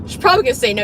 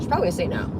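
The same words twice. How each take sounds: First: Louder, higher, punching "probably"; emphatic repeat. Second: Said in the usual way. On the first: Shown as a demonstration.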